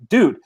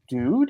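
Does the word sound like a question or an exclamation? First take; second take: exclamation; question. First: It sounds like an emphatic, exclaimed dude. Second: It sounds like a questioning, rising dude.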